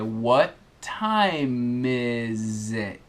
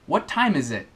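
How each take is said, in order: First: It is said more slowly. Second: It is said at normal, quicker speed.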